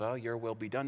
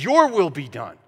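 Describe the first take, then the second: First: It is said in a passive, resigned tone. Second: It is said in a bold, confident tone.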